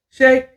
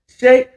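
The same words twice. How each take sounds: The two takes are said the same way.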